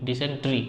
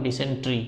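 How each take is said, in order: The two takes are said the same way.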